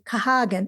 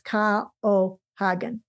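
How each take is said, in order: First: The A and O merge into one vowel. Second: The A and O are sounded as separate vowels. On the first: The speaker calls it wrong. "put the A and O together" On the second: The speaker calls it right. "more like the Spanish every vowel"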